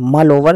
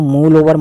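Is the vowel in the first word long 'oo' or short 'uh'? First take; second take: short uh; long oo. First: The first word has a short 'uh' vowel. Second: The first word has a long 'oo' vowel. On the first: The speaker calls it right. "मल over right है" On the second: The speaker calls it wrong. "इसको मूल over मत पढ़ना, ये गलत है"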